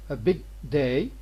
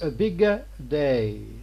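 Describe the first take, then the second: First: The g is unreleased with no added vowel. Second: The g is released with an added vowel. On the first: "the g in English normally is not going to be exploded" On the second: "Italians are going to uh, add an extra syllable here"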